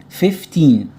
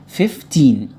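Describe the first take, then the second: No difference in how they are said.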